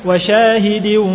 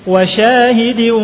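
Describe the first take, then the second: Both takes have the same delivery.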